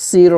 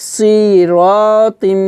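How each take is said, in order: First: সির with a quick, unstretched "si"; quick short vowel. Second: সিরতিম with the first vowel drawn out long; wrongly stretched vowel. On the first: Teacher showing no stretch, সির with a short first vowel. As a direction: hurry through the "si" of সির, then hold the "ra". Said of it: "তাড়াতাড়ি করে পড়তে হবে". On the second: Teacher showing the forbidden stretch, সিরতিম with a long first vowel. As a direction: drag out the "si" of সিরতিম. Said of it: "এবার বলতে পারবো না". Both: Shown as a demonstration.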